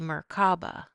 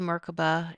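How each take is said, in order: First: The word is said less smoothly and slower. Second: The word flows smoothly and quickly. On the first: "Some people say" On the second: "it's smoother, it's faster, it's easier"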